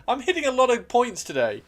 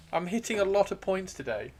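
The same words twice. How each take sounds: First: High, loud outburst; excited exclamation. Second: Said in the usual way. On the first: Real, not acted. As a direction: announce it loudly, pitched well up. Exclaims, then repeats it more calmly.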